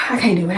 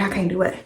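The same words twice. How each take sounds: First: Said in the usual way. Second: Soft. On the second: Real, not acted. Repeated, far softer.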